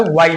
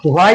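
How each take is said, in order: First: व्हाई as plain "wai", no h sound; व्हाई with a silent h; correct pronunciation. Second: व्हाई with a clearly sounded h, "hwai"; wrong pronunciation. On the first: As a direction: say व्हाई without any h. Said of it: "व्हाई बोलना है". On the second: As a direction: say व्हाई breathing the h before the w. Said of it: "व्हाई नहीं बोलना है". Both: Shown as a demonstration.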